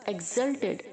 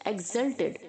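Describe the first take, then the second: The two takes are said the same way.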